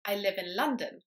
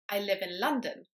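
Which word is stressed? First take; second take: London; London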